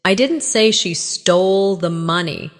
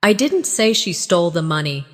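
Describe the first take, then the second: First: Emphasis on "didn't", marking the denial; stress on DIDN'T. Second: Emphasis on "I", the rest unaccented; stress on I. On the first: Teacher shows learners a denial, stress on "didn't". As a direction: lean firmly on the word "didn't". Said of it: "Emphasize didn't". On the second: Teacher shows learners someone else said it, stress on "I". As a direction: lean on the word "I" at the very start. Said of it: "Emphasize I". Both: Shown as a demonstration.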